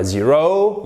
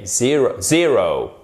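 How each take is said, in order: First: "zero" with the weight on the final "-ro"; wrong stress on zero. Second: "zero" stressed on the first syllable, falling after; correct stress on zero. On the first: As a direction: stress the last syllable: zero as zeRO. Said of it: "Donc ce n'est pas zero". (zero accentué à tort sur la fin) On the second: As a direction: hit ZE- in zero, let "-ro" drop. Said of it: "une des syllabes du mot". (zero accentué sur la première syllabe) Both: Shown as a demonstration.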